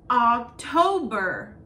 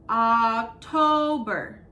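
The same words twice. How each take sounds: First: October drawn out, slow and loud; slow model word. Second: October even slower, loud; slow model word. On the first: Teacher models October slowly for children. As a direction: stretch October syllable by syllable. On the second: Teacher repeats October very slowly for kids. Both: Shown as a demonstration. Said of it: "models month slowly".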